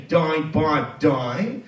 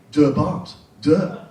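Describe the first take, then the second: First: Die and die said like English die, rhyming with eye; Die pronounced English. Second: De and de said flat, like German "deh", short vowel; German article. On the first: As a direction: say Die, Bart, die as in the English word. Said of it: "as we can hear". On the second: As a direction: say De Bart, de in the German way. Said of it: "as we can hear, is not funny". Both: Shown as a demonstration.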